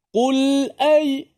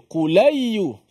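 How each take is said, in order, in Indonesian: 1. Huruf l dihentikan sebelum vokal berikutnya. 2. Huruf l langsung bersambung ke vokal berikutnya. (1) "kita membacanya dengan jelas. Mati" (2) "Dibaca dengan pindah harakat terus"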